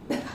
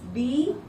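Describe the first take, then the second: First: The b sound has a puff of air. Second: The b sound has no puff of air. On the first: The speaker calls it right. "with the sound, with the air, there is a throw here" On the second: The speaker calls it wrong. "there is no throw"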